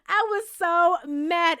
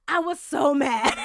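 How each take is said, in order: First: Laughing slowly through it; slow, amused, laughing through the words. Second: Said in the usual way. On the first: Real, not acted. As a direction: drag it out with a laugh.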